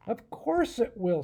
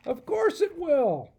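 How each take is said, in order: First: Said in the usual way. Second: Much higher, louder, slower know-it-all goat; goat professor voice. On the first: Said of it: "said the professor". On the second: Acted. Goat professor scoffing at Adam, smug goat voice. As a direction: bleat it out like a smug old goat. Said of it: "Over here's the professor. He's a goat".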